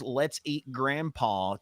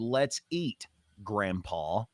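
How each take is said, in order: First: It is said without a pause before grandpa. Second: There is a pause before grandpa.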